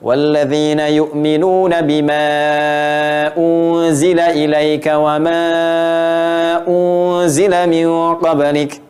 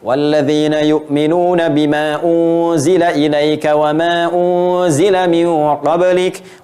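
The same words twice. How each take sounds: First: The stretched vowels are held about three seconds. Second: The stretched vowels are held about one second.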